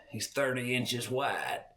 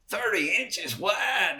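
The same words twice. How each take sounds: First: Put-on softer, understated boast of the old timer; quiet smug boast. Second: "Thirty inches wide?" shouted high and slow; incredulous shout. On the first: Old hunter to the boy, quiet and smug. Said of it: "he's like". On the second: Retold or imitated. Boy to the old hunter, shouting "Thirty inches wide?" in disbelief.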